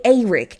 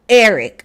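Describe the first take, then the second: First: Eric said with a long A, like AY-rick; A-sound Eric. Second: Said in the usual way. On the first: Shown as a demonstration. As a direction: start Eric with AY, not EH. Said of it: "but A-, A". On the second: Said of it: "Not, not Eric with the E".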